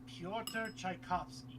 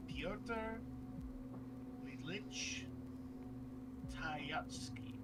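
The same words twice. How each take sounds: First: "Tchaikovsky" said chai-KOF-skee, stress on kov; careful "Pyotr Tchaikovsky", slowly; correct pronunciation. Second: Tchaikovsky said as "Tchayatsky", chay-YAT-skee; mispronounced Tchaikovsky. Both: Real, not acted. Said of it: "Now I know how to say it".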